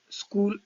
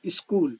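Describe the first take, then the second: First: It begins directly with the s sound. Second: An e vowel is added before the s.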